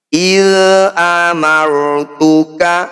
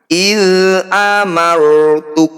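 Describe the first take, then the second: First: The final k is followed by an 'a' vowel. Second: The phrase ends on a bare k sound. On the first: The reading continues without a stop. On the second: The reading stops here.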